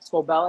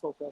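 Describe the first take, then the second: First: The name ends with a 'vell' sound. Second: The name ends with a 'field' sound. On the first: The speaker calls it right. "Scovell, I think it is" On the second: The speaker calls it wrong. "I always say Schofield. It's not Schofield"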